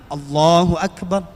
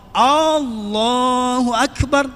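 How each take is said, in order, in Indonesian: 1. Vokal pembuka pada Allah dibaca pendek. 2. Vokal pembuka pada Allah dibaca panjang. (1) "Nggak usah dipanjangin, pendek aja" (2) "memanjangkan alifnya ... nggak boleh"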